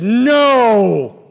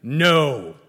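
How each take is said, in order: First: A flat, loud, final no; louder, harder refusal; more emphatic no. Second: Firm no at normal loudness; a short, firm refusal; a plain, firm no; emphatic no. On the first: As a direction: slam the door shut with one loud word. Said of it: "more emphatically said". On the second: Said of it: "said emphatically". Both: Retold or imitated.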